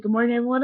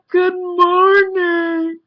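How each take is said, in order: First: Said in the usual way. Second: Very high, loud, drawn-out Good morning; loud obnoxious greeting. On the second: Retold or imitated. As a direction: bellow it slowly to annoy the room. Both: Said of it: "I said it really loud and obnoxious".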